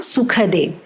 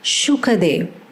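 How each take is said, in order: First: The name begins with a plain s sound. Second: The name begins with an sh sound. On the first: The speaker calls it wrong. "It's not Sukhadev" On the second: The speaker calls it right. "it is Shuka, Shukadev"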